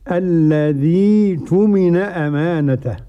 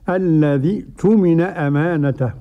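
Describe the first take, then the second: First: The ee vowel of the first word is lengthened. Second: The ee vowel of the first word stays short. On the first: "لما تيجي تبدل لازم تمد الياء" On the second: "بدون مد في الياء"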